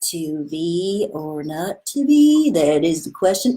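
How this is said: It sounds dim-witted and slow, like someone stupid.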